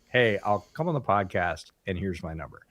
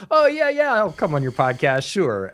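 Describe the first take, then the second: First: Matter-of-fact, softer sincere commitment; genuine offer. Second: High, louder, airy fake agreement; noncommittal brush-off. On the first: Acted. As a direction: say it plainly and mean it, dropping off at the end. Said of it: "as opposed to". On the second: Someone brushing off a podcast invite, insincerely keen. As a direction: toss off an empty promise in a high mock voice. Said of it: "which is the difference, right? The whole, like".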